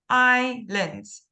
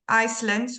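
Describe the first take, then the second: First: No s sound is heard after the first syllable. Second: An s sound is heard after the first syllable. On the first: The speaker calls it right. "We say islands" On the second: The speaker calls it wrong. "We don't say Icelands"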